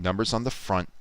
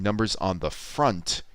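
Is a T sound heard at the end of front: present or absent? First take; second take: absent; present. First: The word front stops after the N sound. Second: The final T of front is clearly pronounced. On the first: "he's stopping after that N" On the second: "He doesn't sound that T on the end. So instead of saying"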